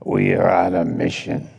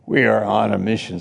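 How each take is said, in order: First: It is said with a rough, guttural voice. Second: It is said in a plain, ordinary voice.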